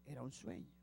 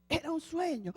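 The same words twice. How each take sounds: First: Much softer and lower, nearly hushed; hushed aside to the congregation; soft reminder. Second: Higher, emphatic reveal; preacher revealing the dream; dramatic reveal. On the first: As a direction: drop your voice to remind them. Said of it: "porque recuerden". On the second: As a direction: announce it as the twist. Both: Shown as a demonstration.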